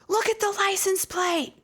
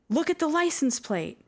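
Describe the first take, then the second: First: It is screamed at full volume. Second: It is said more forcefully and louder.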